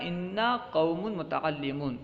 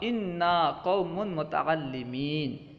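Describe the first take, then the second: First: The last word ends with an 'oon' sound. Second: The last word ends with an 'een' sound. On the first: The speaker calls it right. "असल में होना क्या चाहिए था" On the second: The speaker calls it wrong. "मुतअल्लिमूना की जगह मुतअल्लिमीना कहा"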